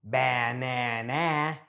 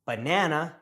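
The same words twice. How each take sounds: First: Banana with a full "a" in all three syllables; slow, every syllable of banana given a full vowel; over-pronounced vowels. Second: Banana with lazy "uh" in first and last syllables; banana, unstressed vowels reduced to schwa; natural schwa pronunciation. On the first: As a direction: say banana as ba-na-na, no schwa. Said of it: "and not banana". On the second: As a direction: say banana as buh-NAN-uh. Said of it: "why we say banana". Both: Shown as a demonstration.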